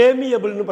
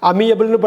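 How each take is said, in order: First: ஏமியபிள்னு with a long "ay" at the start; correct pronunciation. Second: அமியபிள்னு with a short "a" at the start, as learners misread it; the wrong reading அமியபிள்னு, starting "a-mi"; common wrong reading. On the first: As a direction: say ஏமியபிள்னு as "ay-mee-a-bul". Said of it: "ஏமியபிள்னு படிக்கணும்". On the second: Teacher showing viewers the usual misreading, said plainly. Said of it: "அமியபிள்னு படிக்கிற மாதிரி தோணுதா". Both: Shown as a demonstration.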